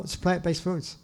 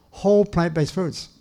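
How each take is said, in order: First: Said in the usual way. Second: "whole" hit first and hardest, falling after it; stress on whole. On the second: Shown as a demonstration. Lecturer stressing whole to his audience, stress on whole. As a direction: lean on "whole", then let the rest fall. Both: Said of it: "I emphasize the word whole".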